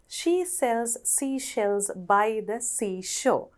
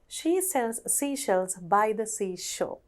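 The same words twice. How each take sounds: First: The sentence is said at a slow pace. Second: The sentence is said at a fast pace. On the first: "අපි එක සැරයක් හිමින් කියවලා" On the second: "Now let's say that faster"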